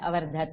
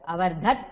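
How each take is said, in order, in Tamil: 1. சொல் இறுதியில் குறுகிய 'a' உயிரொலியுடன் முடிகிறது. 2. சொல் இறுதியில் வெறும் 't' மெய்யெழுத்தில் முடிகிறது. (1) "அவர்தத் இல்ல, அவர்தத" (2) "அவர்தத் இல்ல"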